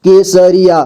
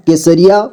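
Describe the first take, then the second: First: Kesariya in measured, separate syllables. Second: Said in the usual way. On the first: Shown as a demonstration. Teacher breaking down Kesariya for learners, syllable by syllable. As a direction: sound out Kesariya piece by piece. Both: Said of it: "जोड़ जोड़ करके".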